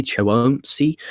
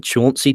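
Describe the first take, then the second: First: "Chauncey" stretched out as cho-OHM-see; "Chauncey" mangled into cho-OHM-see, questioning; alternative pronunciation. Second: "Chauncey" in two syllables, CHAWN-see; "Chauncey" said as CHAWN-see, questioning; trying a pronunciation. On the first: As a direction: sound out "Chauncey" with a long drawn oh. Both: Shown as a demonstration. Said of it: "Is it Chauncey".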